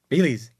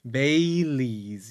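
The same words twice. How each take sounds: First: The word is said quickly. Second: The word is said slowly. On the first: The speaker calls it wrong. "Try not to like Bailey's" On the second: The speaker calls it right. "you have to speak a little slow"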